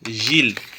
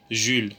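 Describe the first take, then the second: First: The vowel is an unrounded i sound. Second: The vowel is a rounded French u sound. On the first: "Et nous fait mot I sorti" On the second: "on va prononcer le plus facile"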